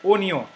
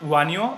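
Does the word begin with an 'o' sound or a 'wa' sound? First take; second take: o; wa. First: The word begins with a plain 'o' sound. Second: The word begins with a 'wa' sound. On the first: The speaker calls it right. "but o nyo" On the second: The speaker calls it wrong. "it is not wa nyo"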